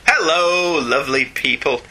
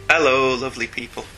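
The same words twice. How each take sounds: First: The greeting sounds lively and full of energy. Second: The greeting sounds flat and low in energy.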